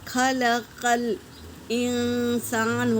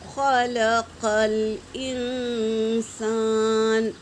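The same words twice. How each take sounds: First: The q sound is light like k. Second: The q sound is heavy and full. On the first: The speaker calls it wrong. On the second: The speaker calls it right.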